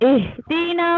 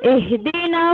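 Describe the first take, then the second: No difference in how they are said.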